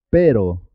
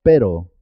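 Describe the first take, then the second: First: One quick tap in "pero"; single tapped R. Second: Trilled rr in "perro"; rolled double R. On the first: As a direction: say "pero" with a brief R, no roll. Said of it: "suena simple". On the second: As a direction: vibrate the RR of "perro". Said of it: "suena doble". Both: Shown as a demonstration.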